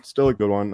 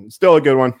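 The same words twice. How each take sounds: First: Said in the usual way. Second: Loud, emphatic pick-me-up on still; loud insistence. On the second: Real, not acted. Bettor to himself, loud insistence. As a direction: bark it out to reassure himself. Insisting the day was good.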